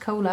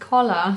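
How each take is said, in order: First: The word is said sounding like 'cola'. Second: The word is said sounding like 'collar'. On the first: The speaker calls it wrong. "I always say cola. It's not cola" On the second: The speaker calls it right. "It's called collar"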